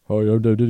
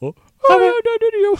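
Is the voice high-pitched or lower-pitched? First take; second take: lower-pitched; high-pitched. First: It is said in a lower-pitched Dan Didio voice. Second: It is said in a high-pitched Dan Didio voice.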